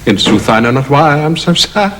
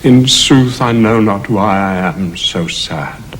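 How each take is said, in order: First: It is spoken in a humorous tone. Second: It is spoken in a sad tone.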